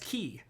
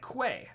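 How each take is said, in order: First: The word sounds exactly like 'key'. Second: The word starts with a 'kw' sound. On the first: The speaker calls it right. "apparently that's key" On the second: The speaker calls it wrong. "It's like Quay"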